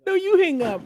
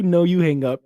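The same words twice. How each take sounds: First: Very high squeal with you stressed; lovestruck banter. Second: High, loud squeal with NO stressed; lovestruck banter. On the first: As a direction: throw it back, stressing you. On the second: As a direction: tease back playfully, stressing No. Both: Acted. Repeated lover banter.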